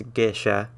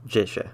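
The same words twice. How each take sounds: First: "gesha" with a hard G as in gate. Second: "jisha" starting with a J sound as in giant; soft J sound. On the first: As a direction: say "gesha" starting with a hard G sound. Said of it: "It's always gonna be a hard G". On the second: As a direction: say "jisha" with a soft J, not a hard G. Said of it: "where it makes a sort of J sound". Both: Shown as a demonstration.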